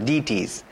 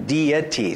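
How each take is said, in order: First: The word is squeezed into two syllables. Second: The word is said clearly in three syllables. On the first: The speaker calls it wrong. "I think your pronunciation sounded close to deities" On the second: The speaker calls it right. "But it's deities, so three syllables"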